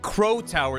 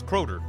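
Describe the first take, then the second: First: The name is said with all its sounds. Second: The name is said with sounds dropped. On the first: The speaker calls it wrong. "It's not Crow Tower" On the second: The speaker calls it right. "it's Crowder"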